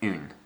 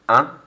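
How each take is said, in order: First: "une" with a clear n at the end; French "une", n sounded. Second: "Un" nasal, no n sound; nasal French "Un". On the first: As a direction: finish "une" on the n. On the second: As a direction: say "Un" through the nose. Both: Shown as a demonstration. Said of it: "Focus on the difference between the two".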